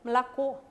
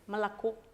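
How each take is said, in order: First: The stress is on the last syllable. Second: The stress is on the first syllable. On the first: The speaker calls it right. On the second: The speaker calls it wrong.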